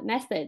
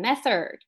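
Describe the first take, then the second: First: It is said without an r-coloured ending. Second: It is said with a Beijing r-coloured ending.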